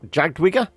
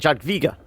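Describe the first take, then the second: First: The middle consonant sounds like an English w. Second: The middle consonant sounds like an English v. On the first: The speaker calls it wrong. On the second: The speaker calls it right.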